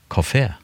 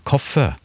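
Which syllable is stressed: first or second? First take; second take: second; first. First: The stress is on the second syllable. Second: The stress is on the first syllable. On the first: "hvis du ikke har trykk, alltid kort vokal på norsk. Kafé" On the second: "typen kaffe. En sterk stavelse før en lett stavelse"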